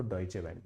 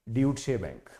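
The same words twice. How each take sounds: First: डॉयचे said doy-che, the German way; correct pronunciation. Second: ड्यूटशे said as dyoo-t-shay, spelling read letter by letter; old wrong pronunciation. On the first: Retold or imitated. Senior correcting the student's pronunciation, डॉयचे said doy-che. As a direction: give डॉयचे bank as doy-che bank, quietly correcting. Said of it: "तो उन्होंने बोला". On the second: Shown as a demonstration. Recalling how he misread the bank name as a student, ड्यूटशे read as dyoot-shay. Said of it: "मैं तो पहले इसको ड्यूटशे bank बोलता था".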